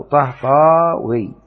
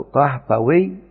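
First: طهطاوي with a long held aa, "Tah-Taaaa-wii"; slow, louder alif in طهطاوي before wii; added long alif. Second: طهطوي slowly as "Tah-Ta-wii", short middle a; waw form. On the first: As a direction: stretch the middle a of طهطاوي right out. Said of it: "أو نزيد ألف قبلها". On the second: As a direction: say طهطوي in beats, keeping the second a short. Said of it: "الثلاثة". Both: Shown as a demonstration.

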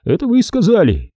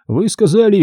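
First: Вы punched high, falling after; Это вы сказали with the weight on вы; stress on вы. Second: Вы сказали with the weight on сказали; stress on сказали. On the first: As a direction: hit the word вы, accusing. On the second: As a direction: lean on the word сказали. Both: A narrator's reading. Stone repeats his point.

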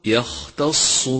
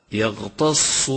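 First: يختص with an airy voiceless خ; correct voiceless Kha. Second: يغتص with خ turned into voiced غ; wrong voiced Ghayn. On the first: Teacher correcting to يختص, breathed خ. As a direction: keep the خ breathed, unvoiced, in يختص. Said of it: "والصواب". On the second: Teacher showing the mistake يغتص, voiced غ. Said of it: "إذا أهملت همس الخاء صار غينا". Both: Shown as a demonstration.

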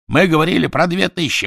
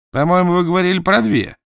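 First: High, loud raging denial; furious shouting. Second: High, louder accusing doubt; suspicious disbelief. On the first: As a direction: bellow the denial in fury. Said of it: "в бешенстве закричал Квидер". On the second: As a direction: throw the doubt back at them. Dot doubts his parents. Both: Acted.

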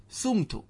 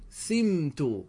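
First: سمت as "sumtu", u after the seen; original form with damma. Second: سمت as slow "siiim-tu", i after the seen; kasra on first letter. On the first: Teacher gives students the form before conversion, سمت said "sumtu". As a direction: say سمت with a short u, "SUM-tu". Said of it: "قبل التحويل كنا نقول ماذا". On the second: Teacher shows students the passive, سمت said slowly as "simtu". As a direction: say سمت drawn out with an i, "SIM-tu". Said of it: "وجب عند المصنف كسر الفاء". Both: Shown as a demonstration.

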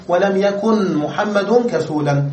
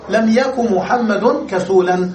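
First: Slow demo, "يكن" said yakun with full n; nun pronounced. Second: Slow demo, "يكن" said yaku without n; nun dropped for lightness. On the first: Teacher showing the full form also allowed, nun kept. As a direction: sound the n of "يكن" before "محمد". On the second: Teacher showing the permitted short form, nun dropped. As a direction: run lam yaku straight into "محمد", no n. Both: Shown as a demonstration. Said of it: "نحذف النون تخفيفا وأن نذكرها".

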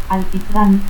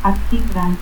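First: Said in the usual way. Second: Alquitrán as "atquitrán". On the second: Shown as a demonstration. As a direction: cut the L of Alquitrán to a stop. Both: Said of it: "confusión de L y T al final de sílaba".

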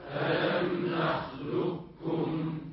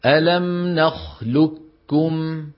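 First: Distant group chant; faint repeat; class echoing from afar. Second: ألم نخلقكم chanted slowly, ق merged into doubled ك; sung, say نخلكم with full merging; sung, slow Quran recitation. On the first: Real, not acted. Students chanting back ألم نخلقكم. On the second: Shown as a demonstration. Sung, teacher reciting the merged reading. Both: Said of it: "فيقولون بكاف مشددة".

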